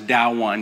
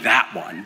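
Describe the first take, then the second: First: "that one" said as "dah-wun"; toddler pronunciation. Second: Said in the usual way. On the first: Shown as a demonstration. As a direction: toddler version of "that one", d for th, dropped final t. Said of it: "but it comes out as". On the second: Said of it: "She's saying".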